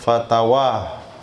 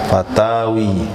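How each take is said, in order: First: The word ends with an 'a' vowel. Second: The word ends with an 'i' vowel. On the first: "Tapi yang sering baca oleh mas saya fatwa" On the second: "yang tepat menurut kaidah fatawi"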